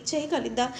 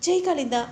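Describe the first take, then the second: First: Said in the usual way. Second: Worried. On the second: Acted. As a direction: ask again, now panicking a little. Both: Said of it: "చాలా కంగారు పడిపోతూ".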